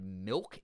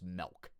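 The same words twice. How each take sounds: First: It is said with a standard American pronunciation. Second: It is said with a Pittsburgh-area regional pronunciation.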